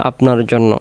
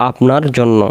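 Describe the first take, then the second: Both takes have the same delivery.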